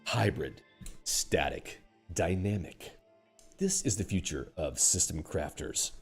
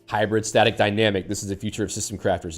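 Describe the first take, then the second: First: It is said in a grave, dramatic voice. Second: It is said in a plain, ordinary voice.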